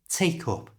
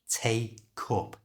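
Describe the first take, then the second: First: It is said quickly, like one word. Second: It is said slowly and carefully.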